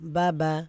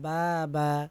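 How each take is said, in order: First: The vowels are kept short and quick. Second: The vowels are drawn out long. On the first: The speaker calls it right. "হরকতের উচ্চারণ তাড়াতাড়ি পড়তে হবে" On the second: The speaker calls it wrong. "বলা যাবে না বা বা, এরকম বলা যাবে না, তাহলে ভুল হবে"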